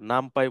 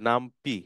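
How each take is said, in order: First: The last syllable sounds like 'pie'. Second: The last syllable sounds like 'pee'. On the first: The speaker calls it right. "এটা নাম পাই বলতে হবে" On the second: The speaker calls it wrong. "অনেকে হয়তোবা বলে যে নাম পি"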